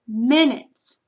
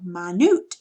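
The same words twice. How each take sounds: First: Minutes said MIN-its, front stressed; first-syllable stress. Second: Minute said my-NOOT, end stressed; second-syllable stress. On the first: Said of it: "accent is on the first syllable". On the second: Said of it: "accented syllable is the second syllable". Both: Shown as a demonstration.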